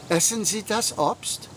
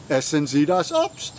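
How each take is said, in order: First: Essen Sie das Obst? with a rising question tune. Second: Essen Sie das Obst. with a falling command tune. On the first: Teacher asking the class a question, rising tune. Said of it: "If I wanted to say". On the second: Teacher giving the class an order, falling tune. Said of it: "I make it a command by saying". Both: Shown as a demonstration.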